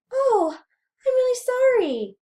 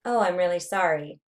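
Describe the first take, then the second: First: Very high, louder squeaky pitch. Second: Said in the usual way. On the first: Shown as a demonstration. Lecturer demonstrates pitch to students, very high voice. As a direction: pitch the whole apology way up.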